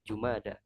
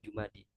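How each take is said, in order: First: The word ends with an 'a' vowel. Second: The word ends with an 'i' vowel. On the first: The speaker calls it right. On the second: The speaker calls it wrong. "bukan Jumadi"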